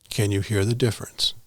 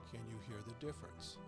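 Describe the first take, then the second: First: The voice is recorded at a very high volume. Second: The voice is recorded at a very low volume. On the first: "Level ten" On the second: "Level two"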